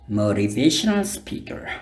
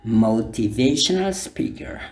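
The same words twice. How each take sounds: First: It is said in an American accent. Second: It is said in a non-American accent.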